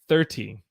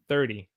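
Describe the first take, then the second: First: The middle consonant is a clear T sound. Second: The middle consonant is a soft D sound. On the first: The speaker calls it wrong. "We don't normally say thirty" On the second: The speaker calls it right. "So I say thirty"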